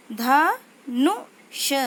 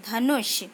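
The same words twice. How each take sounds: First: धनुष drawn out very slowly with a rise; slow syllable-by-syllable reading. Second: Said in the usual way. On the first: Shown as a demonstration. Teacher slowly sounds out धनुष for pupils. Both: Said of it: "उच्चारण कैसे करते हैं".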